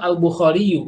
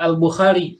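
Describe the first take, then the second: First: The final ya carries its full vowel ending. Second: The final ya is cut short without a vowel. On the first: This is the full form the grammar requires. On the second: The heavy final ya is lightened for ease. "makanya dibacanya dia putus"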